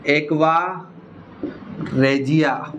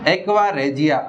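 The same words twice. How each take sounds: First: aqua, pause, then regia, each word slow and separate; slow split name. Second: Said in the usual way. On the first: Shown as a demonstration. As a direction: say aqua, stop, then regia, spelling it out for students. (Aqua और regia को रुक-रुककर धीरे बोलना) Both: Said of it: "आपको एक नाम और ध्यान रखना है".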